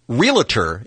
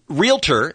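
First: The word has an added extra syllable. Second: The word has no added syllable. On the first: The speaker calls it wrong. "what a lot of people say. They're adding extra syllables" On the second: The speaker calls it right. "Realtor is correct"

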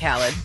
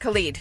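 First: The second syllable sounds like 'lid'. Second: The second syllable sounds like 'leed'. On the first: The speaker calls it wrong. "not Khalid" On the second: The speaker calls it right. "Yes, Khalid"

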